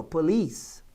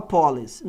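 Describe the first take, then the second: First: "police" stressed on its final syllable; correct stress on police. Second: "police" wrongly stressed on the first syllable; mispronounced police. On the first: Teacher correcting students, "police" with the strong last syllable. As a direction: say "police" as po-LICE, weight on the end. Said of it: "a sílaba forte é aqui". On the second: Teacher showing students a common error, "police" stressed up front. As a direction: say "police" as PO-lice, accent on the front. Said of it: "pronunciar isso errado". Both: Shown as a demonstration.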